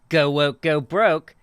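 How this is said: It sounds smug and passive-aggressive, with a chuckle. A mocking prediction that the thing will fail. "passive aggressive, like, heh"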